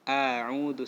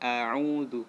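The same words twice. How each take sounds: No difference in how they are said.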